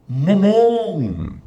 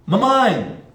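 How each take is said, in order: First: Slow, muffled "mamão!" called high, vowel darkened; calling from the mountain. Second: "Mamãe!" called out high and clear; calling mom. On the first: Teacher calls mom from the mountain, slow. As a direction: call "mamão!" slowly, as if thin air flattens it. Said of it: "E no alto da montanha". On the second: Teacher calls mom at sea level, high. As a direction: call "Mamãe!" across the beach. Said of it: "Você chama mamãe no nível do mar". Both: Shown as a demonstration.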